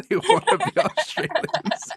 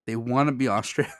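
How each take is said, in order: First: Laughing, much higher mock Australian accent. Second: Said in the usual way. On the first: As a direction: tease the Brits in a put-on Australian accent, pitched way up. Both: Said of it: "Maybe your Australian accent".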